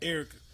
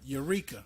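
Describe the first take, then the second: First: It is said like the name Erica. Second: It is said like the word eureka. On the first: "Get what they call her" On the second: "A name that's spelled wrong. I mean, spelled right"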